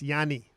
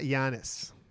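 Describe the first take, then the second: First: The name ends without an s sound. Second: The name ends with an s sound. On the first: The speaker calls it right. "It's Yanni" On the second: The speaker calls it wrong. "it's not Giannis"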